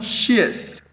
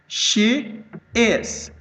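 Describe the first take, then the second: First: The words merge into one short syllable. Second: Two full separate words are said.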